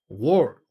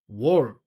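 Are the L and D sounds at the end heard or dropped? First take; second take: dropped; dropped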